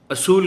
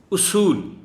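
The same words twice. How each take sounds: First: اصول said a-sool, high; common wrong pronunciation. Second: اصول high and loud, u-sool; pronunciation demo. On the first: Retold or imitated. Teacher mimics the usual wrong اصول. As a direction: imitate how we say اصول. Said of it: "اصول کہتے ہیں ہم لوگ". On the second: Shown as a demonstration. Teacher pronounces اصول for students. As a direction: call out اصول. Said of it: "لیکن یہ لفظ اصول ہے".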